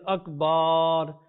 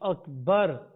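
First: The vowel after the b is stretched. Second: The vowel after the b is short. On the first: The speaker calls it wrong. "he's stretching the ba, that will also invalidate the salah" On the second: The speaker calls it right. "instead of saying Akbar"

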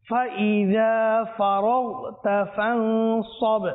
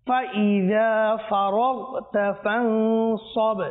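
No difference in how they are said.

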